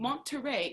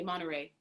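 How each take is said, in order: First: The t is strongly and crisply articulated. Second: The t is lightly and softly articulated. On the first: The speaker calls it wrong. "where you don't say Monterey" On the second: The speaker calls it right. "a little bit less um, t, t, t in your articulation"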